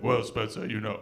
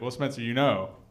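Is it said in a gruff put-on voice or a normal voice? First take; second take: gruff put-on; normal. First: It is said in a gruff, rocky imitated voice. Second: It is said in the speaker's own normal voice.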